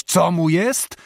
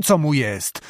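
First: Co raised on a rising question tune; mocking question. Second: Co mu jest said falling and final; answering fall. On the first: Abbot mocking Maćko's question, rising tune. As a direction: throw back Co mu jest as a scornful question. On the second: Acted. Abbot answering his own question, falling tone. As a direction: answer it flatly, with a falling close. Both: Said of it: "począł krzyczeć".

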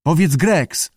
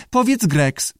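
First: Lightly voiced keeper, a bit higher; tentative prompting. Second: High squawky echo; parroting lizard. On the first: Keeper tries teaching the lizard his name, prompting. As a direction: prompt it as a test. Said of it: "spróbował". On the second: Lizard repeats the keeper's words, squawky echo. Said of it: "powtórzył jaszczur". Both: A narrator's reading.

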